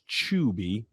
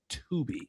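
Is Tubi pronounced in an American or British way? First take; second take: British; American. First: Tubi is pronounced the British way. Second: Tubi is pronounced the American way.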